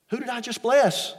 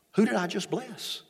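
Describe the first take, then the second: First: A blind father realising he blessed the wrong son; alarmed repeat. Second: A father starting to realise something is wrong; puzzled question. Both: Acted. Isaac realises he was tricked.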